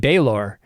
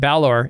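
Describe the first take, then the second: First: The first syllable sounds like 'bay'. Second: The first syllable sounds like 'bal'. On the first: The speaker calls it right. "It should be Baylor" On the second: The speaker calls it wrong. "I've been mispronouncing Balor"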